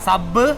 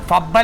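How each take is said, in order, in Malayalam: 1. ഈ വാക്ക് s ശബ്ദത്തിലാണ് തുടങ്ങുന്നത്. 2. ഈ വാക്ക് f ശബ്ദത്തിലാണ് തുടങ്ങുന്നത്. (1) "ഞാൻ പറയണത് സബ്" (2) "ഫബ് അല്ല"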